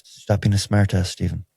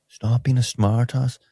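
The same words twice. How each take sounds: First: Said in the usual way. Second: Slow, higher, badly faked American accent; botched American accent. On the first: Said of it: "I was trying to have". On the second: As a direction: attempt American, land nearer Belfast. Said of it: "trying to have an American accent".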